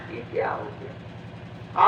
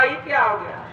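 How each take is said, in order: First: High breathy wailing on ये क्या हो गया, slow and hushed; a mourner's broken lament of ये क्या हो गया; crying out. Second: Said in the usual way. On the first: Retold or imitated. (रोते हुए ऊँची, फुसफुसाती आवाज़ में ये क्या हो गया) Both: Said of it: "और रोने लगे".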